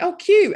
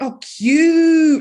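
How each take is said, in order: First: The word is said briefly with mild approval. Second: The word is drawn out with strong enthusiasm. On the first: She thinks it is nice but is not excited. "when she thinks something's nice, but she's not like, oh, I really like this" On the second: She really likes it. "like with loads of U's"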